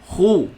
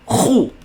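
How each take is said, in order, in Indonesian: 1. Bunyi d punya gema yang ringan dan lembut. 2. Bunyi d punya gema yang kuat dan tegas. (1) "kena bunyi macam tu" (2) "Jangan terlalu kuat. Khu, tu salah"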